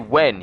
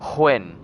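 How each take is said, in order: First: The word starts with a plain w sound. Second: The word starts with a breathy hw sound. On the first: "he doesn't say when" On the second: "He puts emphasis on the W H"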